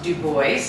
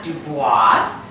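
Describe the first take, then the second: First: The name is said with an English pronunciation. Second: The name is said with a French pronunciation. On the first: The family dropped its French heritage. The speaker calls it right. "It's pronounced Du Bois" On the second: It reflects the original Huguenot heritage. The speaker calls it wrong. "and not Dubois"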